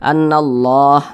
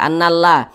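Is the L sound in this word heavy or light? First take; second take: heavy; light. First: The L sound is heavy and thick. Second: The L sound is light and thin. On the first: "dibaca tebal menjadi annallah" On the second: "Pada awalnya dibaca annallah"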